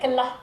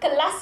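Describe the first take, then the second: First: Kedah dialect: the final S becomes an H. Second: The final S is pronounced clearly.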